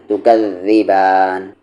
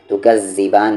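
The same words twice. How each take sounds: First: तुकज़्ज़िबान with doubled th as in this; correct zaal sound. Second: तुकज़्ज़िबान with a doubled plain z; wrong z sound. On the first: Teacher showing what to read, voiced th in तुकज़्ज़िबान. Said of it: "क्या पढ़ना है?". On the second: Teacher showing what not to read, plain z in तुकज़्ज़िबान. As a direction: say तुकज़्ज़िबान with buzzing z instead of th. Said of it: "नहीं पढ़ना है". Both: Shown as a demonstration.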